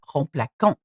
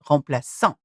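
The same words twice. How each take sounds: First: The middle consonant is a hard k sound. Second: The middle consonant is a soft s sound. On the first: The speaker calls it wrong. "If it didn't have a cedilla, then the sound will be k" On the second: The speaker calls it right. "It has a s because the letter that follows is a a"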